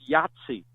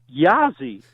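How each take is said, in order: First: The word is said with a clear T sound. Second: The word is said without a T sound. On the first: The speaker calls it right. "I believe it's pronounced Yahtzee" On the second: The speaker calls it wrong. "he pronounced it Yazzie"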